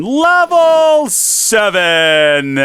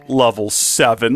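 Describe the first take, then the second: First: High, loud, very slow wail; despairing wail. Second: Said in the usual way. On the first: Real, not acted. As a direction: stretch "Level seven!" out in despair. Lost levels, drawn-out wail.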